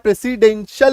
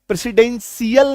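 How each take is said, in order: First: The ending is one short syllable, 'shul'. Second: The ending is two syllables, 'shee-ul'. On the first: The speaker calls it right. "प्रेसिडेंशियल होता है, तो सल होता है" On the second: The speaker calls it wrong. "प्रेसिडेंशियल नहीं होता है"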